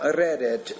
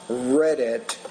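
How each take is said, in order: First: The R at the start is pronounced hard. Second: The R at the start is pronounced soft. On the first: The speaker calls it wrong. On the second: The speaker calls it right.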